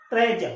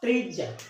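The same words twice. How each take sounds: First: ट्रेजर with a short e, as in treasure; correct pronunciation. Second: ट्रीजर with a long ee, the wrong way; wrong pronunciation. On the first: (सही उच्चारण ट्रेजर, छोटी ए के साथ) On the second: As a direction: say ट्रीजर like tree-jer. (गलत उच्चारण ट्रीजर, लंबी ई के साथ) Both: Shown as a demonstration. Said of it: "इसको ट्रीजर नहीं बोलते".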